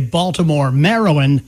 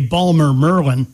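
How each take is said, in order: First: The city name is said in full, standard form. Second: The city name is clipped, local Baltimore style.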